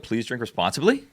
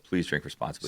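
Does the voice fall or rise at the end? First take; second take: rise; fall. First: It sounds like a question, rising at the end. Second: It sounds like a statement, falling at the end. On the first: It sounds uncertain. The speaker calls it wrong. "I said it as though it was a question" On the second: It is a plain statement. The speaker calls it right. "Stated as fact"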